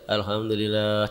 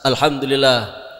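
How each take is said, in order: First: It is said weakly, without energy. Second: It is said loudly and firmly.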